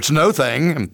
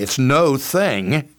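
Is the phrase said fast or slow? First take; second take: fast; slow. First: The phrase is said at a faster pace. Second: The phrase is said at a slower pace. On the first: "I'll say it faster" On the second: "I say it this way"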